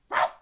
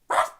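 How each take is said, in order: The two takes are said the same way.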